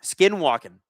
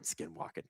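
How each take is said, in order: First: Said in the usual way. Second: Whispered. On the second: Shown as a demonstration. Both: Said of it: "I can't read tonight".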